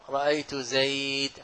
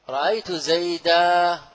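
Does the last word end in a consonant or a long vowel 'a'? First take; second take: consonant; long vowel. First: The last word ends on a silent consonant. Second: The last word ends with a long 'a' vowel. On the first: "وربيعة تقف عليه" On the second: "جمهور العرب في التنوين نصب يوقف عليه بالألف"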